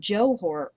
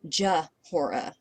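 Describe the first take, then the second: First: The first syllable has a 'jo' vowel. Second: The first syllable has a short 'juh' vowel. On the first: The speaker calls it wrong. "It's not Johora" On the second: The speaker calls it right. "it's Jahora"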